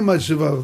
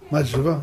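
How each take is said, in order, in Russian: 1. Это сказано как обычное утверждение. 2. Это сказано как вопрос. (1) "Не мать жива, положительно" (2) "вопрос на вопрос"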